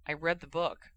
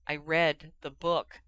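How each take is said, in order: First: Said in the usual way. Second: Slow, firm stress on read; insistent repeat. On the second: Acted. Harry insisting to Ginny he read it, slow firm stress. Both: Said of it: "Harry repeated".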